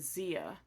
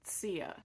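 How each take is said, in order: First: The name begins with a z sound. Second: The name begins with a ts sound. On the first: This is the pronunciation the Spanish introduced. The speaker calls it wrong. "it was the Spanish that changed it to Zia" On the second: This is the people's own pronunciation. The speaker calls it right. "the correct pronunciation is actually Tsia"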